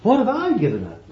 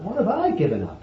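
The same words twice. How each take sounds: First: High, fast, huffy "What have I given up?"; a hammed-up complaining disciple; mock indignant boast. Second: Mock boast. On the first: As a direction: sneer it like a self-pitying martyr. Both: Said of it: "he could have said for you".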